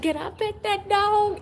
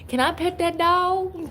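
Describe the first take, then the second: First: Very high, squeaky pleading; higher meme voice. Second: High eager asking; meme voice. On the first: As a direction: push it up into a squeal. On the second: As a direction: beg like an excited kid. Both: Retold or imitated. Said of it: "Y'all remember that?".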